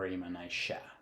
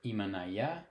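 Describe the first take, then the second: First: The double L is sounded like 'sh'. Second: The double L is sounded like 'y'. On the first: "turn the double L into a sh instead of a ya" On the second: "this can be pronounced either imanaya or imanaisha"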